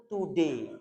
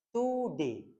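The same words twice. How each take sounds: First: Today dengan pelafalan baku sesuai rumus; today diucapkan menurut kaidah bahasa; textbook today. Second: Today dengan pelafalan baku; textbook today. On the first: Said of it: "Orang Inggris itu secara bahasa". (today dilafalkan seperti di buku) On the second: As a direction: ucapkan Today sesuai kaidah. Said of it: "secara bahasa". (Today versi buku pelajaran) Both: Shown as a demonstration.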